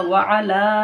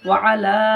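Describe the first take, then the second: Both takes have the same delivery.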